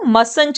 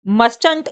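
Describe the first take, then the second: First: The t sound in the middle is silent. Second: The t sound in the middle is pronounced. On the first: The speaker calls it right. "मस्ट का जो ये टी होता है ये silent हो जाता है" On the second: The speaker calls it wrong. "आप इसको मस्टंट नहीं रीड करेंगे"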